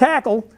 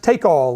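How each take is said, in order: First: The first vowel sounds like 'tack'. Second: The first vowel sounds like 'take'. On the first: The speaker calls it wrong. "usually not pronounced that way" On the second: The speaker calls it right. "It's pronounced take-all"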